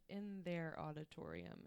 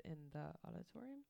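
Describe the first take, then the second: First: "their" picked out as the wrong word; stress on THEIR. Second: Said in the usual way. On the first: Shown as a demonstration. Co-host admitting her lyric mistake, stressing "their". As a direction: lean lightly on "their". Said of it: "except for I put". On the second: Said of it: "instead of".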